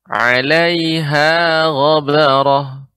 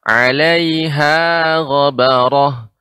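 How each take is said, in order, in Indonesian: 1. Vokal setelah h pada 'alaiha panjang. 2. Vokal setelah h pada 'alaiha panjang.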